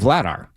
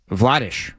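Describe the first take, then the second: First: The name ends with a plain 'ar' sound. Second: The name ends with a rolled 'arsh' sound. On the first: This is the familiar anglicized form. "we know him as Daniel Vladar" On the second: This is the player's own Czech form. "Vladish is how he says it. That's how you say it in Czech"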